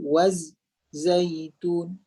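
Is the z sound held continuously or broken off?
broken. The z sound is cut off with a break. The speaker calls it wrong.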